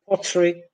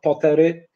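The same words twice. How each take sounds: First: The first consonant has a puff of air. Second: The first consonant has no puff of air. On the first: The speaker calls it right. "In English, they are" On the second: The speaker calls it wrong. "not pottery"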